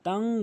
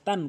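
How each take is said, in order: First: The final n is held with a nasal hum. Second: The final n is short and plain. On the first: The speaker calls it right. "তাং বলতে হবে, ইকফা করতে হবে, গুন্না করতে হবে" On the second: The speaker calls it wrong. "কখনোই বলবেন না"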